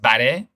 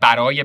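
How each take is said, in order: First: The word is said in a shortened form. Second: The word is said in its full form.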